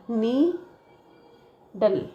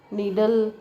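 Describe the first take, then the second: First: "needle" very slow, broken as nee... dle; "needle" divided before the d with a long gap; split into syllables. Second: Said in the usual way. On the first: Shown as a demonstration. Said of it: "divide the word before consonant preceding". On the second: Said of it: "ऐसा".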